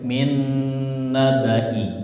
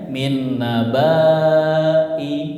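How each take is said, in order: First: The vowel is kept short. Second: The vowel is held long. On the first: This is how it is actually recited. The speaker calls it right. "tapi nanti bacanya pendek" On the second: This follows the written spelling. The speaker calls it wrong. "Panjang ya"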